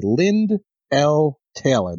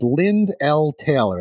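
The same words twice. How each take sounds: First: Slow, deliberate "Lynd L Taylor"; very specific. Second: Said in the usual way. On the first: Retold or imitated. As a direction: space out "Lynd L Taylor" word by word. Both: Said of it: "It says very specifically".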